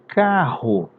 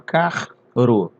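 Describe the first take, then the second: First: The two r letters make one sound. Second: The two r letters are sounded separately. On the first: The speaker calls it right. "Você fala carro" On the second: The speaker calls it wrong. "você não fala carro"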